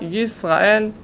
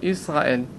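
First: The word begins with a clear y sound. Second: The word begins directly with a vowel. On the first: The speaker calls it right. "יזהר לומר ישראל" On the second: The speaker calls it wrong. "ולא ישראל"

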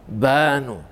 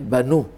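First: The stress is on the first syllable. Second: The stress is on the last syllable. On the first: The speaker calls it wrong. "אתה לא יכול לומר" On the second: The speaker calls it right. "בלשון רבים, אתה אומר"

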